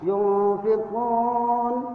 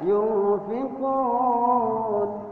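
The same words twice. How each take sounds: First: The long vowel is held for two beats. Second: The long vowel is held for four beats. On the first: "boleh dibaca panjangnya dua harkat" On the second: "boleh dibaca empat harakat"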